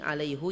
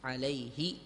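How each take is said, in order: First: The final pronoun is said with a u vowel. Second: The final pronoun is said with an i vowel. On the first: It is the original form before lightening. "alaihu yang asli, yang belum masuk takhfif" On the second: It is the lightened form used in speech. "hak dhamir setelahnya diharokati kasroh"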